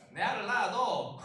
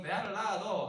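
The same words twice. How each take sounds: First: Slow, loud Gyeongsang dialect drawl. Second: Quicker Gyeongsang dialect line. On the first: Pastor imitating a Gyeongsang man proposing, slow dialect. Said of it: "경상도 프로포즈". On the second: Pastor repeating the Gyeongsang proposal line in dialect. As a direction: toss off the Gyeongsang phrase again. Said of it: "경상도에서는". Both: Retold or imitated.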